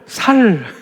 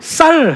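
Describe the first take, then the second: First: It starts with a plain, soft s sound. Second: It starts with a tense, strong s sound.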